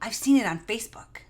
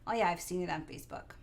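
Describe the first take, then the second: First: It is said with an excited gasp. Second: It is said in a casual, offhand way.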